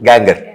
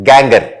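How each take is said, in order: Both takes have the same delivery.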